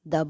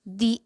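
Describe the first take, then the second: First: The word has a short uh vowel. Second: The word has a long ee vowel. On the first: The next word starts with a consonant. "तो इसे द बोला जाता है।" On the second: The next word starts with a vowel. "तो इसे दी बोला जाता है।"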